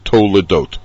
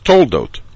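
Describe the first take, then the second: First: It is said in three syllables, to-le-dot. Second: It is said in two syllables, tol-dot. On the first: This is the form used when reading the Torah. The speaker calls it right. "But the real word, the one that you're supposed to use when you're reading the Torah" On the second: This is the everyday way people name the portion. The speaker calls it wrong. "the sedra is toldot"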